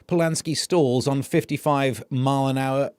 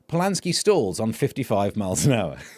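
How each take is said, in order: First: The intonation sounds off and awkward. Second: The intonation sounds smooth and natural. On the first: The speaker calls it wrong. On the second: The speaker calls it right.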